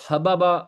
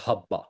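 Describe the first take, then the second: First: حبابا as ha-ba-ba; three separate short syllables in حبابا; uncontracted root pattern. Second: حبا as HAB-ba; flowing, merged pronunciation. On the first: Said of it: "اس کا بنتا ہے ویسے وزن". (حبابا کو الگ الگ "حَ-بَ-بَ") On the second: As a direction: merge the two b's of حبا into one doubled sound. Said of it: "فلو میں آ کے اس کو بولتے ہیں". (حبا کو تشدید سے "حَبّ-بَ") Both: Shown as a demonstration.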